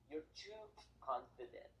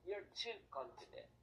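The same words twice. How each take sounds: First: "too" leaned on slowly; slow, weighted "You're too confident."; stress on too. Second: "too" leaned on again, a bit slower; stress on too. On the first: Speaker teaching his audience, slow stress on "too". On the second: Repeating the lesson point to listeners, stressing "too". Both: Shown as a demonstration.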